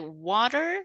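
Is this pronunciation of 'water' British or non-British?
non-British. It is said in a non-British accent. "Here we say water"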